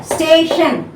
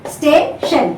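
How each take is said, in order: First: Said in the usual way. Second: "station" split as sta, then tion; syllable by syllable. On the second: Shown as a demonstration. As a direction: break "station" into two separate syllables. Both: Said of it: "two syllable".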